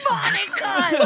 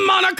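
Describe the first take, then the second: First: High mock wail with laughter; losing racer's cry. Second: Loud, high-pitched name cry; excited mock yell. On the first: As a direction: wail the name as the race slips away. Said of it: "When he starts to lose, he's like". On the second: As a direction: holler the name at the offered prize. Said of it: "And then he's like".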